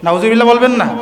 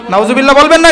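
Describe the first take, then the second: First: Said in the usual way. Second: না lifted, the prompt said louder. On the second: Real, not acted. Preacher prompts the crowd to say it louder. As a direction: coax a louder response. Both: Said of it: "একটু আওয়াজ দিয়ে বলেন".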